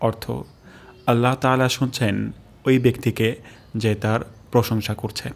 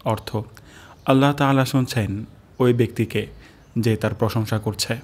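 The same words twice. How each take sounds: The two takes are said the same way.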